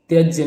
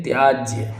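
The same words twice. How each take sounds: First: त्यज्य with a short vowel; wrong form. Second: त्याज्य with a long "aa"; correct form. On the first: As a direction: say त्यज्य as "tyajya". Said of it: "त्यज्य नहीं". (त्यज्य में "त्य" छोटा बोलें) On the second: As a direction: say त्याज्य as "tyaajya". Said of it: "त्याज्य होगा". (त्याज्य में "त्या" लंबा बोलें) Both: Shown as a demonstration.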